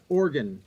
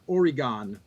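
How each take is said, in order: First: It is said with a West Coast pronunciation. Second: It is said with an East Coast pronunciation.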